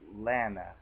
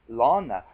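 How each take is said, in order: First: The first vowel sounds like the 'a' in cat. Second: The first vowel sounds like the 'aw' in law. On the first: This is how the speaker assumed the name was said. "I was thinking L A N N A" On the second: This is the pronunciation the name's owner insisted on. "L O N N A or L A W N A"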